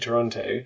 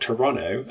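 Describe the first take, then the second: First: Toronto is said with an English pronunciation. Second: Toronto is said with an attempted Canadian pronunciation.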